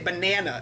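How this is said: It is said in an American accent. "We say banana"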